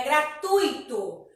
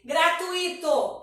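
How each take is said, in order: First: Slow gratuito as gra-TUI-to; correct pronunciation. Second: Slow gratuito as gra-tu-I-to; incorrect pronunciation. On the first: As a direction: stress U in gratuito, gliding into I. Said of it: "É gratuito". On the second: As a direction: put the stress of gratuito on a separate I. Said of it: "Não existe". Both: Shown as a demonstration.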